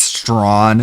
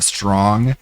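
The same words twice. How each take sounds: First: "strawn" said with the final g dropped; "strawn" with no g at the end; "strawn" in a fake Southern drawl; mock accent. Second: Said in the usual way. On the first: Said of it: "she says strawn instead of strong". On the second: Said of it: "instead of strong".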